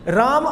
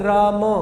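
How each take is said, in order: First: The word ends on a bare m consonant. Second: A short a vowel follows the final m. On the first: The speaker calls it wrong. "राम अगर बोल दिया तो इस म को हलंत दिखाना पड़ेगा" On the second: The speaker calls it right. "म के बाद भी मैंने अकार का उच्चारण किया, ये शुद्ध उच्चारण है।"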